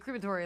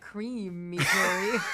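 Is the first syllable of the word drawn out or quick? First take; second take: quick; drawn out. First: The word is said quickly, first syllable light. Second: The first syllable is stretched and hit hard. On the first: The speaker calls it right. "like really fast" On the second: The speaker calls it wrong. "You hit cream real hard"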